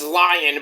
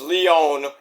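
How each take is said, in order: First: The name is said the English way, like 'lion'. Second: The name is said the French way, with French sounds. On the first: The speaker calls it wrong. "Everybody says it's Lion" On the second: The speaker calls it right. "but it's Lyon. How can you pro- not pronounce that correctly? Because you don't take French"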